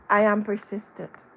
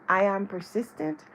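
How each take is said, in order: Both takes have the same delivery.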